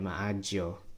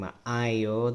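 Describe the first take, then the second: First: The middle consonant is a j sound. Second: The middle consonant is a y sound. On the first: "they'll say maagyo ... So the Jia sound" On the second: "instead of saying maayo"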